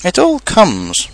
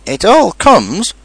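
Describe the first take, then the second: First: High, slow, peeved complaint; cross. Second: High, slow, emphatic rebuke; stern. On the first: Pooh blaming Rabbit for being stuck, cross. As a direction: draw it out crossly, laying blame. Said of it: "said Pooh crossly". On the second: Rabbit correcting stuck Pooh, stern. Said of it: "said Rabbit sternly". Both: A narrator's reading.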